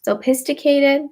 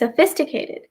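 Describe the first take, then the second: First: The 'ph' is sounded out as separate p and h. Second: The 'ph' is said as a single f sound. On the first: The speaker calls it wrong. "break up করে বলতে চেষ্টা করেন" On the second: The speaker calls it right. "it's actually sophisticated. P এবং H টা একসাথে make an F sound"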